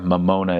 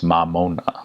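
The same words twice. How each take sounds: First: The A and O vowels are narrow. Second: The A and O vowels are wide open. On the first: The speaker calls it wrong. "Instead of" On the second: The speaker calls it right.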